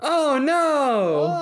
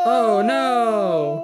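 First: It is said at a higher pitch. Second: It is said at the lowest pitch.

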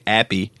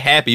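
First: The word begins without any h sound. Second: The word begins with an audible h sound. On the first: The speaker calls it wrong. "you wouldn't say appy" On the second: The speaker calls it right. "You just say happy"

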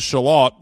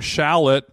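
First: It is said with a British English pronunciation. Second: It is said with an American pronunciation. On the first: "the proper English way of saying it, which is shallot" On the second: "obviously to the American tongue, shallot is just how you say it"

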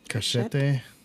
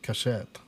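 First: The word is pronounced with Spanish sounds. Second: The word is pronounced with French sounds. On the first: The speaker calls it wrong. "I read it like it was in Spanish" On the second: The speaker calls it right. "No, / that's France"

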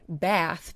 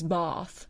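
First: The vowel is a short, flat a. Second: The vowel is a long, open ah.

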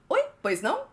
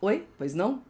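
First: It is said in Dory's character voice. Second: It is said in a voice unlike Dory's.

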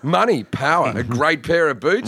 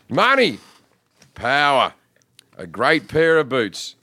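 First: It is read quickly with short pauses. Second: It is read slowly with long pauses.

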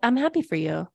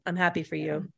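First: The voice is bright and enthusiastic. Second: The voice is flat and unenthusiastic. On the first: The speaker calls it right. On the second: The speaker calls it wrong.

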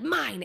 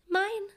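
First: It is said in a harsh, demanding way. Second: It is said in a sweet, soft way.

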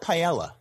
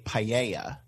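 First: The double L is said as plain L. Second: The double L gets the Spanish sound. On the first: The speaker calls it wrong. "they will not do the double L in paella" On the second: The speaker calls it right. "we say correctly paella"

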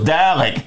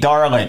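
First: No r sound follows the first vowel. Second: An r sound follows the first vowel. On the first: "So you can imagine my surprise when it was Dalek" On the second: "we always pronounce this Darlek. D-A-R-L-E-K"

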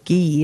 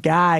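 First: The name is said with a French pronunciation. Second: The name is said with an English pronunciation. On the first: The speaker calls it right. "no, it's Guy" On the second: The speaker calls it wrong. "I always thought it was Guy"

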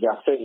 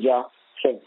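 First: The name is said with an American accent. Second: The name is said with a Jamaican accent. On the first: The speaker calls it wrong. "You all pronounce it in American" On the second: The speaker calls it right. "but his name is"

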